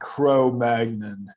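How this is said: It is said with an American pronunciation. "I just said in my American way"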